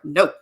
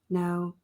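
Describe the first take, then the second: First: It sounds bold and firm. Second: It sounds timid and apologetic.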